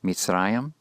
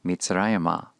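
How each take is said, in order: First: "Mitzrayim" ending on a closed m; plain noun form. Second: "Mitzrayimah" with an open final -mah; hey locative form. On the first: Teacher lets learners hear the plain noun Mitzrayim, clearly pronounced with final m. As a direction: say "Mitzrayim" with stress on "ra", ending in -yim. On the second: Teacher lets learners hear the similar form Mitzrayimah, clearly pronounced with added -ah. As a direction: say "Mitzrayimah" keeping stress on "ra", adding unstressed -ah. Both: Shown as a demonstration. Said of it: "Hear the similarity between them".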